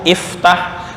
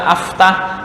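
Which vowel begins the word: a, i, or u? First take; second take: i; a. First: The word begins with an i vowel. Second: The word begins with an a vowel. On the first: The speaker calls it right. "Fataha yaftahu, iftah" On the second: The speaker calls it wrong. "Nggak boleh dibaca aftah"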